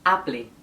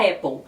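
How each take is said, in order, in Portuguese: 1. É dita letra por letra, como está escrita. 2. É dita perto da pronúncia em inglês. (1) "literalmente como se escreve" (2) "um pouco mais próximo à pronúncia do inglês"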